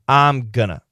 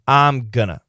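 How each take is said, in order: First: Going to is reduced to gonna. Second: Going to is reduced to gonna.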